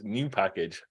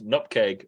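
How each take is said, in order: First: It is said as three syllables, new-pack-age. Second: It is said as two syllables, nup-keg. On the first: "as new package" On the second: "if you pronounce nupkeg"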